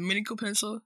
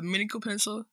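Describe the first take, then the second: First: The word mechanical is pronounced in a garbled way. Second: The same.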